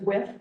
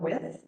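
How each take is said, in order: First: The word ends with a t sound. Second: The word ends with a th sound.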